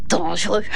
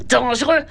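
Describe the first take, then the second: First: Low mocking echo. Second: Said in the usual way. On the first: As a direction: drop the word low and mock it. (écho moqueur très grave) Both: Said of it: "Mais c'est trop dangereux".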